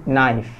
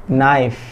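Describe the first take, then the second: No difference in how they are said.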